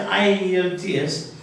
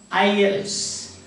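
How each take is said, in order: First: Each letter is said separately. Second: The letters are joined into one word. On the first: "We often say" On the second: "you can also pronounce it as ... because it is a word"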